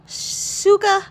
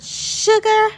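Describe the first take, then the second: First: "Suga" with a clean "s" and no r at the end; corrected name. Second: "Sugar" said like the English word sugar, with a "sh" and an r; mispronounced name. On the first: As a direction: correct yourself and say "Suga" with a crisp s. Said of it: "every time I try to say Suga". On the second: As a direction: slip into saying "Sugar" like sugar in the kitchen. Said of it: "every time I try to say [name], Sugar, it comes out as sugar". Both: Real, not acted.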